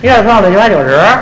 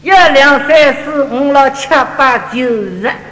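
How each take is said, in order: First: It is counted in a fast, slurred Beijing accent. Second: It is counted lightly in a Shanghai accent, teeth closed.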